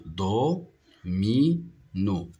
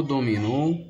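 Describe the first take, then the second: First: "Do, mi, no" as three isolated beats; split into syllables. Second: Said in the usual way. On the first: Shown as a demonstration. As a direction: count out "Do, mi, no" with gaps. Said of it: "se compose de trois syllabes". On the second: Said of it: "Le mot domino".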